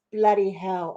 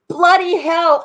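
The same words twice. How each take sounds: First: Said in the usual way. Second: Quick British "Bloody hell" with "bloody" said loud and high; imitating Alex's British exclamation "Bloody hell"; British accent. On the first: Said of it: "Oh, I love that". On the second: Viewer Alex's phrase read out in a British accent. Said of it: "Alex's Great Britain accent saying".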